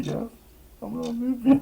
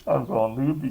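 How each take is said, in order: First: High falsetto singsong; silly high-pitched repeat; squeaky loopy. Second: Said in the usual way. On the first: Real, not acted. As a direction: squeak it like you're cracking up.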